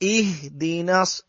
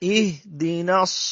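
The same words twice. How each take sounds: Both takes have the same delivery.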